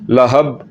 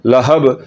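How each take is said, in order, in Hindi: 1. अंतिम b बिना किसी कंपन के बंद होता है। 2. अंतिम b झटकेदार कंपन के साथ छोड़ा जाता है। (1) "अगर कलकले के बगैर पढ़े तो फिर पढ़ा जाएगा" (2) "कलकले के साथ पढ़ना है, झटके के साथ पढ़ना है। कैसे?"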